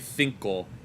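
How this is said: The first consonant is a th sound. This is how it is said in Spain. "you say cinco"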